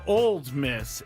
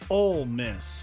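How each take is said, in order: First: The first word ends with a d sound. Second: The first word ends without a d sound. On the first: The speaker calls it wrong. "It's not Old Miss" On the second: The speaker calls it right. "It's Ole Miss"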